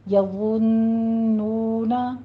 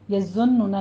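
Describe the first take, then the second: First: The z sound is soft, without a whistle. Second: The z sound has a whistling hiss. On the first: The speaker calls it right. "होंठों को गोल कीजिए" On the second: The speaker calls it wrong. "नहीं कहना सीटी की आवाज़ नहीं आनी चाहिए"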